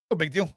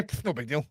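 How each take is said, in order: First: Said in the usual way. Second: Mock shrug. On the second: Mocking dismissive echo.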